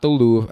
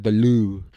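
First: "Louvre" as "loov", closing on a v; English pronunciation. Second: "Louvre" with its ending swallowed; attempted French pronunciation. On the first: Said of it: "I said the Louvre". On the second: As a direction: say "Louvre" French-style, drawn out like "loo". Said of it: "not the Louvre". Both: Shown as a demonstration.

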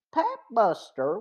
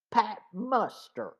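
First: Said in the usual way. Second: Glad cry of recognition; joyful exclamation. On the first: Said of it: "Pat Muster was a plainclothes man". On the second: A narrator's reading. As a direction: greet him with relief and joy. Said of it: "Frank exclaimed joyfully".

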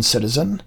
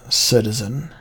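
First: "citizen" whined with a pleading rise; wheedling whine. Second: Said in the usual way. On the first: Acted. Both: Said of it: "I changed my voice to a wheedling whine".

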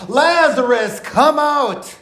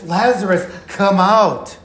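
First: High, commanding call; loud cry. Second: Mild, firm summons; restrained calling out. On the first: Preacher voicing Jesus summoning Lazarus from the tomb, loud cry. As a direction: call out slowly and forcefully, pitched well up. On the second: Preacher repeating Jesus' call after a hushed wait, restrained calling out. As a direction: call it out, holding back the volume. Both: Acted. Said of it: "he cried out in a loud voice".

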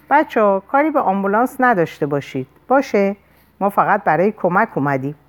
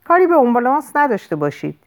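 First: Measured, controlled appeal; calm but authoritative. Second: Quick, higher-pitched warning; narrated shout. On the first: Sam asking the gang to spare the ambulance, calm authority. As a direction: reason with them, steady and in charge. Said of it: "صداش آروم ولی مقتدرانه بود". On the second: Sam warning the gang off the ambulance, mild shout. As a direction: call it out fast, moderately raised. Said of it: "رو به اونها فریاد کشید". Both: A narrator's reading.

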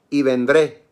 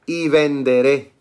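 First: Said in the usual way. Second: "venderé" drawn out slowly, with the extra E sounded; corrección de pronunciación. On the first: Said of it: "y perdón, perdón". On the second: Shown as a demonstration. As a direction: say "venderé" slowly, ven-de-RÉ, accent on the final E. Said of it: "con acento en la E". ("venderé" lento, con acento en la E)

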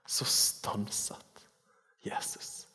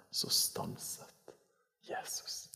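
First: Whispered, very slow; slow hushed whisper. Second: Whispered, slow, in hushed awe; awed whisper. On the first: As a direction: let every word hang in wonder. Repeats verse hushed, slow. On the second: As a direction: breathe it like holding your breath. Awed whisper of key verse. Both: Acted.

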